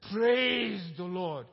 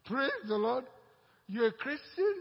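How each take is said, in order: First: Slow, loud, drawn-out Praise; joyful proclamation. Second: Higher, louder shocked question; as if you can't believe your ears; surprised disbelief. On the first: Believer answers his partner with a slow, loud praise. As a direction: proclaim it like a joyful shout in church. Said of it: "And the guy said". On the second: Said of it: "And the fellow said, Huh?". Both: Retold or imitated.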